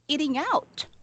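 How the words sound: It is said with a native English accent. The speaker calls it right. "But the American or the British, they say it"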